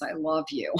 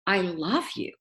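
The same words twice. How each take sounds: First: It sounds forced and unconvincing. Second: It sounds warm and sincere.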